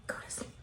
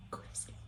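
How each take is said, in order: First: Eerie hissed whisper; creepy whisper. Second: Snake-like whispered hiss. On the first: Pretend. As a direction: whisper from behind the curtain. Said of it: "he's like". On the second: Acted. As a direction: hiss it like a serpent. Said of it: "serpentine hiss whispers".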